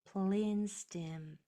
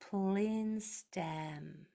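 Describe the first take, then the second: First: The last vowel is a narrow 'ih' sound. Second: The last vowel is an open 'eh' sound. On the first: The speaker calls it right. "My mouth was in a wide shape the whole time" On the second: The speaker calls it wrong. "If my jaw dropped, ... listen to the difference in the sound"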